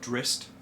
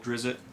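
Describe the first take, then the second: First: The name is said in the current pronunciation. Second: The name is said in the older pronunciation. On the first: The speaker calls it right. "Drizzt is the correct pronunciation" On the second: The speaker calls it wrong. "who I used to call Drizzt"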